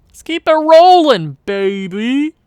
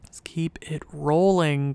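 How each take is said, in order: First: Loud, high hype shout; excited cheer. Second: Said in the usual way. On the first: Acted. Gamer cheering a win streak, excited cheer. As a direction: belt it out to hype up the team.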